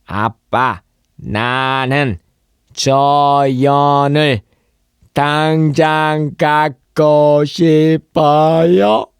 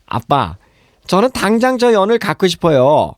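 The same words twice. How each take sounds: First: Slow, robotic syllable-by-syllable reading; absurdly slow, chopped-up demonstration; unnaturally drawn-out. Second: Put-on high, lively child-like plea; fluent, higher-pitched everyday asking; natural flow. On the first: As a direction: stretch every syllable on a held, raised tone. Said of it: "이렇게 안 하잖아요". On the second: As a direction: run it together in one natural breath. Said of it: "이렇게 자연스럽게 발음하죠". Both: Shown as a demonstration.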